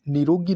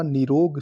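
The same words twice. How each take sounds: First: निरोगी with final ee; wrong form. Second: निरोग ending on g; correct form. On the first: Teacher rejecting the wrong form: निरोगी with final ee. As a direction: say "ni-ro-gee" for निरोगी. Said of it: "नहीं होता". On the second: Teacher giving the right form: निरोग ending on g. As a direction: say निरोग with no final vowel. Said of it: "शुद्ध है". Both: Shown as a demonstration.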